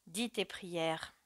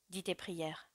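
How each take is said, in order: First: Terrible voice. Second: Soft, contained paternal command; grim quiet order. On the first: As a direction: draw the command out softly, with dread weight. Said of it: "répéta Matteo d'une voix terrible". (ordre lent d'une voix terrible) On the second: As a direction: order the child softly, with finality. Father orders son before killing him. (ordre grave et bas du père) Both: A narrator's reading.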